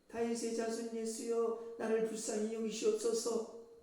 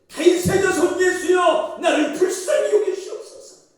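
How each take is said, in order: First: It is said in a quiet voice. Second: It is shouted in a loud voice.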